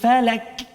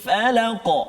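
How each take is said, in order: First: The word ends in a plain front k sound. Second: The word ends in a deep back q sound. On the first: The speaker calls it wrong. "Jadi kaf" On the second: The speaker calls it right. "Sepatutnya qaf"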